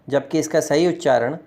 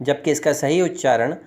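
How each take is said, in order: No difference in how they are said.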